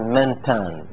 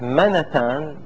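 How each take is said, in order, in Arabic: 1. النون ساكنة لا تتبعها حركة. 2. تتبع النون فتحة قصيرة. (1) "النون تكون مسكنة تقول منتان" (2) "والفتح منتان هذا قليل"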